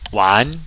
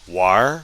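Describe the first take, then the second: First: The word ends without an R sound. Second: The word ends with an R sound.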